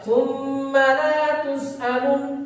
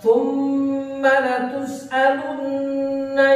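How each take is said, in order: First: The vowel in the last word is cut short. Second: The vowel in the last word is held long. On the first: The speaker calls it wrong. "kalau dibaca" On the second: The speaker calls it right. "yang mestinya panjang"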